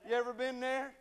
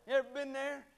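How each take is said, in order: Both takes have the same delivery.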